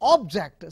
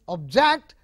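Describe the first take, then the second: First: The stress is on the first syllable. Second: The stress is on the second syllable. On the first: A thing. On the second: To try to stop someone doing something.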